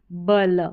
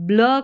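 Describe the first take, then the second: First: 'बल' with a full vowel after b; unblended mispronunciation. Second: 'ब्ल' with b and l run together, no vowel between; blended pronunciation. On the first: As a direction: split it into two sounds, 'बल'. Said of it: "होता है, न कि". ('बल' में पूरा ब अलग बोलें) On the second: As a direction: say 'ब्ल' as one blended sound. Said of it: "दोनों का उच्चारण ब्ल करके". ('ब्ल' को मिलाकर, आधे ब के साथ बोलें) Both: Shown as a demonstration.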